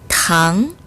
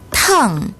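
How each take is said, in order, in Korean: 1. 중간 높이에서 높게 올라가요. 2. 높은 데서 급하게 떨어져요.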